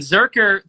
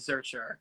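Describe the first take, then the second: First: The middle consonant is a hard k sound. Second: The middle consonant is a ch sound. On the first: The speaker calls it right. "Zerker to me sounds cooler" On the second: The speaker calls it wrong. "than Zercher"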